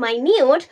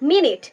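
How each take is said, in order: First: The first vowel sounds like 'eye'. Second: The first vowel is a short 'i' sound. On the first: It means subtle or very small. "যখন এটির উচ্চারণ হবে মাইনিউট তখন এটি বোঝাবে সূক্ষ্ম" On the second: It refers to a unit of time. "যখন এটার উচ্চারণ হবে মিনিট তখন এটি সময় বোঝাবে"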